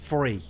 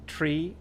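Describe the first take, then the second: First: The word is said in a London accent. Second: The word is said in an Irish accent. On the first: "Or if you're from London, it's free" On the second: "Or three in Ireland"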